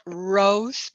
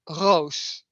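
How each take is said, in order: First: The name is said like the English word 'rose'. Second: The name is said with a Dutch vowel. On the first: The speaker calls it wrong. "It's not Rose" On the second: The speaker calls it right. "but Roos"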